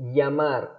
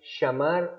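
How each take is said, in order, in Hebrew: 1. הצליל הראשון דומה ל-y באנגלית. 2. הצליל הראשון דומה ל-sh באנגלית. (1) "אני יגיד יא" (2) "צלילים שישמעו לנו כמו שין"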